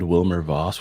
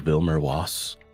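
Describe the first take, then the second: First: The name is said with English sounds. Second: The name is said with German sounds.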